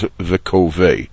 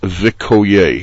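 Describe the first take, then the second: First: The middle consonant is a v sound. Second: The middle consonant is a y sound. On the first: The speaker calls it wrong. "mistakenly rendered as Vikovei" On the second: The speaker calls it right. "the correct pronunciation"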